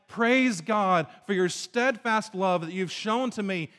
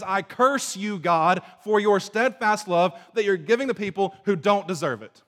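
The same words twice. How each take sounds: First: Slow, grateful praise of God's love; praising. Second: Louder angry cursing of God. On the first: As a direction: give thanks sincerely and slowly. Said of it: "instead of God saying". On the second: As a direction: spit out the curse with resentment. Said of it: "he says". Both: Retold or imitated.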